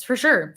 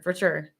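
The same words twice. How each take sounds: First: "sure" lifted high and louder; emphatic agreement. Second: Said in the usual way. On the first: Shown as a demonstration. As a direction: punch "sure" with a rising emphasis.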